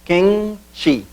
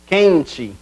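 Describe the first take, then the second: First: "quente" split into quen, te; syllable by syllable. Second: Said in the usual way. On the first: Shown as a demonstration. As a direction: say "quente" as two beats with a pause between. ("quente" separado em quen, te, com pausa) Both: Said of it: "separação silábica seria".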